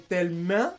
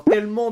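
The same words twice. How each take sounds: First: Tellement dit « tellemin ». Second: Said in the usual way. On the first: Shown as a demonstration. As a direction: fermer la finale de tellement en IN. (« tellemin » à la québécoise) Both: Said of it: "le en devient un".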